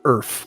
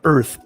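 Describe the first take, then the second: First: The word ends with an 'f' sound. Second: The word ends with a 'th' sound. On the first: "Earth with an F" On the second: "Not Earth"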